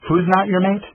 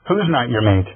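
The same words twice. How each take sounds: First: Higher, with the weight on not in Who's not your mate; insistent repeat. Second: Gentle demand. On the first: Asking his sister again after she dodged, insistent with not stressed. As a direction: press the question again, leaning hard on not. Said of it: "Again, I asked". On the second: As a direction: ask gently yet insist on an answer, Who's leading. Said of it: "Raisa demanded gently". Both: A narrator's reading.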